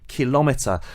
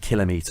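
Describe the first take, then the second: First: The stress is not on the first syllable. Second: The stress is on the first syllable. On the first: The speaker calls it wrong. "So why do people end up saying kilometre?" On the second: The speaker calls it right. "actually it should be kilometre"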